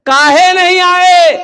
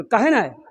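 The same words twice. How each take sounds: First: High, loud, drawn-out challenge; shouted demand. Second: Said in the usual way. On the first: Acted. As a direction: stretch the question into an indignant shout. Preacher shouts the retold question. (ज़ोर से खींचकर डाँटता सवाल)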